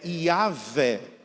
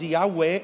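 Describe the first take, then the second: First: The middle consonant is a v sound. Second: The middle consonant is a w sound. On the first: This is the Portuguese form of the name. The speaker calls it right. "Em português é Yahvé" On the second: This is the English form of the name. The speaker calls it wrong. "Yahweh é em inglês, não é em português"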